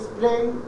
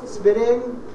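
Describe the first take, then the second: First: The consonant cluster is said with no vowel. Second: An extra vowel breaks up the consonant cluster. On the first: The speaker calls it right. "instead of saying spring" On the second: The speaker calls it wrong. "they say spring"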